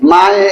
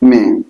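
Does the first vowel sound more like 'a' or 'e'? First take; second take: a; e. First: The first vowel sounds like an open 'a'. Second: The first vowel sounds like an 'e'. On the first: The speaker calls it wrong. "মায়ে এরকম কি কেউ উচ্চারণ করে" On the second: The speaker calls it right. "এর উচ্চারণ স্বাভাবিক তাহলে কি মেয়ে"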